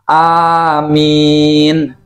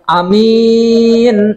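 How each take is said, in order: First: Both vowels are drawn out long. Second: The first vowel is short, the second long. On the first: O God, answer the prayer. "Bacanya A-nya panjang, min-nya juga panjang" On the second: Honest and trustworthy. "yang A-nya pe pendek"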